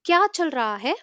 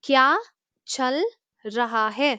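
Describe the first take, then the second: First: The phrase is said fast with raha lightly reduced. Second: The phrase is said slowly with every word clear. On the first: "இதை ஃபாஸ்டா கேட்கும்போது ... ரஹா அப்படிங்கிறது அழுத்தம் கொடுக்காம கொஞ்சம் லைட்டா சொல்லுவாங்க" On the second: "நான் ரிப்பீட் பண்றேன்"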